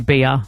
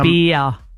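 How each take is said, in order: First: It is said with an added uh ending. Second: It is said with a long stretched vowel.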